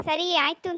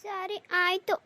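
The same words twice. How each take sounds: First: A touch louder, half-hearted cheerful agreement; forced brighter. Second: Grudging, sulky agreement. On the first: Daughter told by her mother to agree smiling, half-hearted cheer. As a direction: try to sound pleased, not quite managing. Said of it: "ನಗ್ನಗ್ತ ಹೇಳಕ್ ಹಾಕಿಲ್ವೇ". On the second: Daughter agreeing to the train trip, sulky and grudging. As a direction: give in with a pout. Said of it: "ಮಕ್ಕ ಗಂಟಿಕೊಂಡು ಮಾತಾಡ್ತಿದ್ದಿ". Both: Acted.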